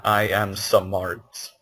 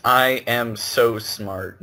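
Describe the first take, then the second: First: "smart" as "suh-mart", slow and low. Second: Said in the usual way. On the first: Shown as a demonstration. Friend correcting a misquote, "smart" said as "suh-mart". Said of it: "not I am smart". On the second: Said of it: "It's I am so smart".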